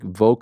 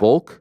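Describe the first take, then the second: First: The word rhymes with yoke. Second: The word does not rhyme with yoke. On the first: The speaker calls it wrong. "Am I saying it like Volk, like yoke?" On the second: The speaker calls it right. "Should it be"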